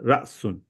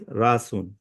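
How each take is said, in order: First: A short glottal catch breaks the word after ra. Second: The ra vowel is stretched long without a catch. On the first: "there is a little jerk, little chatka" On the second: "It stretches the ra to rasun"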